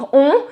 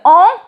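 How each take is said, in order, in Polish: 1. Samogłoska jest wymawiana z zaokrąglonymi ustami. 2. Samogłoska brzmi jak polskie „on”, mniej zaokrąglona. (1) "zrobimy kółko ustami. I wtedy wychodzi dźwięk on" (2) "Nie zrobimy on"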